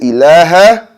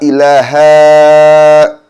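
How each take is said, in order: First: The vowel is kept short, not stretched. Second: The vowel is stretched out long. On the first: The speaker calls it right. "You say ilaha" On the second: The speaker calls it wrong. "not ilaha"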